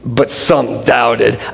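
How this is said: It is spat out with disgust.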